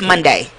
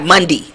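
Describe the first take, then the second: First: The final syllable is a full 'day' sound. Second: The final syllable is a short 'dee' sound. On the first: The speaker calls it right. "It's an A in there" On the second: The speaker calls it wrong. "It's not Monday"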